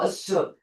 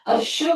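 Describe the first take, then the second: First: The middle consonant is a plain 's' sound. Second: The middle consonant is a 'sh' sound. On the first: The speaker calls it right. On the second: The speaker calls it wrong.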